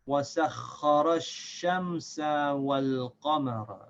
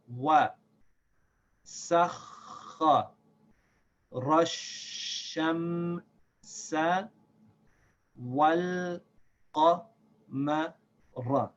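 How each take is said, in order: First: It is read at the quickest pace. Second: It is read slowly, syllable by syllable. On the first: "And now a little bit faster again" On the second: "We'll read slowly at first"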